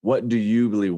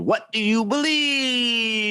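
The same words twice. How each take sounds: First: Said in the usual way. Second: Much higher, slow, shouted "What do you believe?" with a cry in it; signature shouted intro. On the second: Shown as a demonstration. Host recreating the guest's famous show intro, shouted. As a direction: belt "What do you believe?" like a preacher's catchphrase. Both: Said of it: "He had a really good intro".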